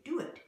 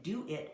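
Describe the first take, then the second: First: "do it" with a W glide, higher; W link. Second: Said in the usual way. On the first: Shown as a demonstration. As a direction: join "do" and "it" with a W. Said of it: "we say". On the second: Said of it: "Rather than".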